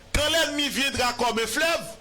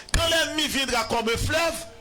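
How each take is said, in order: The two takes are said the same way.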